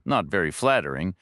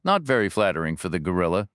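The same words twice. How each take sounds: First: Said in the usual way. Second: Quick, dry aside about the gorilla; dry joke. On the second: Acted. Reacher jokes back at the agent, quick and dry. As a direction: toss off the joke fast and dry. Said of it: "Reacher replied".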